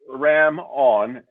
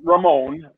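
First: It is split into two separate words. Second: It is run together as one name. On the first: It is a play on the album title. The speaker calls it right. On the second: It sounds like a person's name. The speaker calls it wrong. "Not Ramon"

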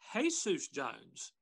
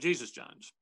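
First: Jesus is said the Spanish way, like hey-soos. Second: Jesus is said the English way, with a J. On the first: The speaker calls it right. "should actually be pronounced" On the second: The speaker calls it wrong. "instead of"

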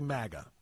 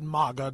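First: The first vowel matches 'magazine'. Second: The first vowel differs from 'magazine'. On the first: This is the speaker's own way of saying it. "I say MAGA. It's the way it is, because it looks like magazine to me" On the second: This is how some other people say it. "some people pronounce it MAGA"

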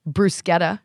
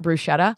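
First: It is pronounced the original, non-American way. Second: It is pronounced the Americanized way. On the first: The speaker calls it right. "even though it's right" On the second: The speaker calls it wrong. "not bruschetta"

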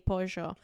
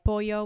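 First: The double L sounds like sh, Argentine style. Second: The double L sounds like a y.

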